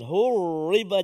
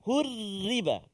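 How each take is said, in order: First: The r is said heavy and thick. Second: The r is said light and thin. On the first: The speaker calls it wrong. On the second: The speaker calls it right. "Tipis sebab dia baris bawah"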